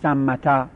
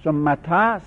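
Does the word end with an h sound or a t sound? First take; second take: t sound; t sound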